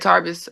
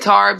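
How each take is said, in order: First: The name is said with an English pronunciation. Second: The name is said with a French pronunciation. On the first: This is how the speaker himself says it. "I say Tarbes" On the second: This is how the locals say it. "They say Tarbes"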